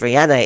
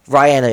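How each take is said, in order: First: The first syllable sounds like 'ree'. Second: The first syllable sounds like 'rye'. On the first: "it would be Ree" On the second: "it would be Rye"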